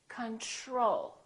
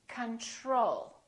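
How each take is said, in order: No difference in how they are said.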